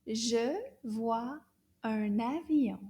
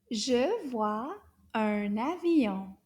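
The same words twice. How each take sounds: First: Said in the usual way. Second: Je vois un avion said slowly and evenly; slow model. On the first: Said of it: "say the sentence together". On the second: Shown as a demonstration. Teacher to class, slow model sentence. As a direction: spell out each word of Je vois un avion. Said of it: "One more time".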